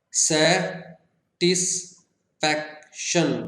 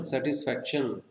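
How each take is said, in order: First: सैटिस्फैक्शन very slowly as सै, टिस, फैक, शन; four-syllable split. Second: Said in the usual way. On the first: Shown as a demonstration. Teacher counting four syllables, सैटिस्फैक्शन in separate beats. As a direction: pause after each syllable of सैटिस्फैक्शन. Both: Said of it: "four syllables के हमारे पास".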